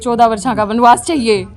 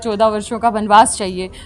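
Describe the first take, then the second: First: It is spoken in a rustic Haryanvi dialect. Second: It is spoken in standard Hindi. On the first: The speaker calls it wrong. "Haryanvi में बोल दिया तो" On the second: The speaker calls it right. "Hindi ही रहेगी"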